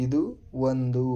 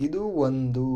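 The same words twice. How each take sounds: First: ಇದು, pause, then ಒಂದು said apart; word by word. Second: Said in the usual way. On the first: Shown as a demonstration. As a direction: break ಇದು and ಒಂದು into two separate words. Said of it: "teacher splits it word by word". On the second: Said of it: "teacher models the phrase".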